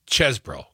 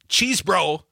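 First: The first vowel is a short 'e' sound. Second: The first vowel is a long 'ee' sound. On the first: The speaker calls it right. "the E, is like dessert" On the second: The speaker calls it wrong. "It's not cheese bro"

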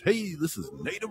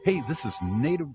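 First: It is said in a put-on radio DJ voice. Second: It is said in an ordinary speaking voice.

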